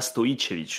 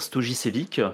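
First: The name is said the Serbian way, j like y. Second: The name is said the French way. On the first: "en bon serbe, tu diras" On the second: "En français, tu vas plutôt dire"

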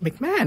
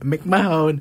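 First: The last syllable has a short 'on' vowel. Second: The last syllable has a long 'own' vowel. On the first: The speaker calls it right. "It's like pronounced like McMahon, right?" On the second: The speaker calls it wrong. "For the longest time, I kept calling it McMahone"

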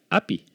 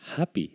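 First: The word begins directly with a vowel sound. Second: The word begins with a breathy h sound. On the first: "En español que sería happy. Oh, esto es muy soso" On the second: "pon la H, ¿lo ves?"

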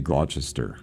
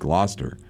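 First: The name is sounded out letter by letter. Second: The name is said in a shortened form. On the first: The speaker calls it wrong. "Don't ever say Gloucester. It's not the right way to say it" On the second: The speaker calls it right. "It's just Gloucester"

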